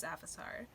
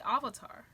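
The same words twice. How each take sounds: First: "Avatar" with a short flat a at the start; series pronunciation. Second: "Avatar" with a broad ah at the start; altered pronunciation. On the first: Reviewer noting the character's wording, "Avatar" with short a. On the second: Reviewer questioning everyone's pronunciation, "Avatar" as "Ah-vatar". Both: Shown as a demonstration. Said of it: "Why does everyone say Avatar".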